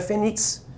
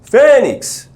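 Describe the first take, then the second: First: The stress is on the last syllable. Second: The stress is on the first syllable. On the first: The speaker calls it wrong. "Você sabe que não é fênix" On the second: The speaker calls it right. "A sílaba tônica qual é? A penúltima"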